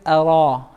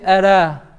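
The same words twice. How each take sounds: First: The r is said heavy, with a full mouth. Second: The r is said light, with a thin mouth. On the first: The speaker calls it right. "but we say" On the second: The speaker calls it wrong. "We don't say"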